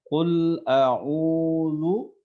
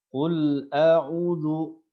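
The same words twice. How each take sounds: First: The vowel in a'udzu is held long. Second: The vowel in a'udzu is cut short. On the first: The speaker calls it right. "Ada bacaan panjang di sana" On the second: The speaker calls it wrong. "dia membaca pendek tanpa membaca panjang"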